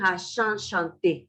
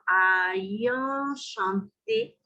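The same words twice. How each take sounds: First: The first two vowels have no glide between them. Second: A y-like glide joins the first two vowels. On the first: The speaker calls it wrong. "No es ayan chanté, que yo había escrito" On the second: The speaker calls it right. "La Y, cuando se encuentra entre vocales, se vuelve iode"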